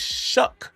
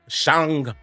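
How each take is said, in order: First: The name ends with an 'uck' sound. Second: The name ends with an 'ang' sound. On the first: The speaker calls it right. "It's Shuck" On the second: The speaker calls it wrong. "I was saying his name wrong. I was saying it was Shang"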